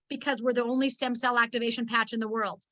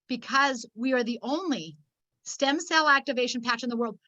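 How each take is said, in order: First: The sentence is spoken at a quicker pace. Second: The sentence is spoken at a slower pace.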